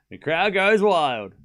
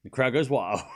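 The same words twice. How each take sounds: First: Slower, louder hammed-up crowd call; mock announcer. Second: Said in the usual way. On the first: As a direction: ham it up like a TV commentator.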